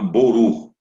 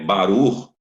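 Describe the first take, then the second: First: It is said in an Ashkenazi Hebrew accent. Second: It is said in a Sephardic Hebrew accent. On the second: "os judeus sefaradim pronunciam"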